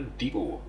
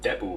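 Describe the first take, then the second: First: The first syllable sounds like 'deep'. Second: The first syllable sounds like 'dep'. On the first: "like a deep hole" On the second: "I usually do depot"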